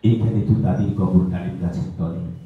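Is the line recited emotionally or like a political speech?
emotional. It is recited in a tender, emotional voice. "আবেগী কণ্ঠে আবৃত্তি করলো"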